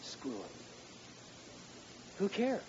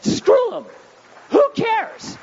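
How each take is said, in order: First: Muttered aside. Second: Much higher and louder, hammering "Screw"; "Screw 'em" shouted high and loud. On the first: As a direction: throw it away under the breath. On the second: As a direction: bellow it at the whole congregation. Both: Shown as a demonstration. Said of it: "Let me say that again".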